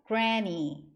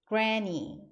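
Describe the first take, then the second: No difference in how they are said.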